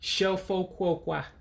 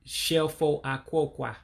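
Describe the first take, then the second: First: The first vowel of the second word is dropped. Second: The first vowel of the second word is kept. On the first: The speaker calls it right. "you're going to drop the A in aquaqua" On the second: The speaker calls it wrong. "Instead of shelfo aquaqua"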